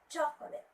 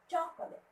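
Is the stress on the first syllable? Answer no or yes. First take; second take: yes; yes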